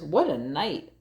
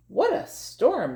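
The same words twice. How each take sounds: First: Muttering mole. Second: High chirpy little bird voice; twittering wren. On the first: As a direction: mutter it like a grumpy little mole. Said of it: "Mole mutters". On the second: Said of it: "twitters wren". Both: Acted.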